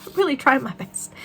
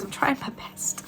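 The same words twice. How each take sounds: First: Said in the usual way. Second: I'm trying my best whispered, slower and softer; a sheepish whisper of apology. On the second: Real, not acted. Apologising for stumbling words.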